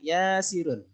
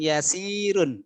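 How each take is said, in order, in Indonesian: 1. Vokal pertama diucapkan panjang. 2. Vokal pertama diucapkan pendek. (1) "tapi ya-nya yang panjang" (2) "bukan yasirun"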